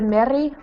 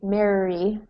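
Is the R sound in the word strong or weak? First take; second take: weak; strong. First: The R sound is weak and barely heard. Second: The R sound is strong and clearly heard. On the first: The speaker calls it wrong. "instead of Mary" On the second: The speaker calls it right. "we need Mary"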